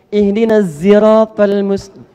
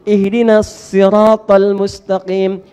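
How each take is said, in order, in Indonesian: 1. Sirat diawali bunyi z yang mendengung. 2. Sirat diawali bunyi s yang tebal.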